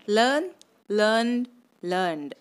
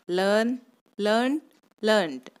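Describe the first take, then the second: First: ಲರ್ನ್ಡ್ closed on a voiced D; learned, ending on D rather than T. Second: ಲರ್ನ್ಡ್ closed on a crisp T; learnt, ending on T rather than D. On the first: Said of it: "ಲರ್ನ್ಡು ಆಗುತ್ತೆ". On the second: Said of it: "ಲರ್ನ್ಟು ಆಗುತ್ತೆ". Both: Shown as a demonstration.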